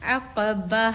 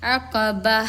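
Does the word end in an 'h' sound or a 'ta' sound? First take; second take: h sound; h sound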